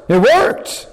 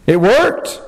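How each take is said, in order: First: Higher, rising amazement on worked; amazed emphasis. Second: Said in the usual way. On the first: Real, not acted. Preacher repeating Peter's success with rising amazement. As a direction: lift "worked" up in wonder.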